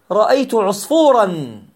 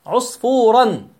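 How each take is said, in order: First: Said in the usual way. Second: عصفورا slowly with the final nun sound ussfurn; teacher slowly sounding out عصفورا with its nun; drawn-out tanwin. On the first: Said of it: "تقول مثلًا". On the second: Shown as a demonstration. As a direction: stretch عصفورا to show the hidden nun. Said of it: "يوجد فتحة ويوجد فتحة أخرى".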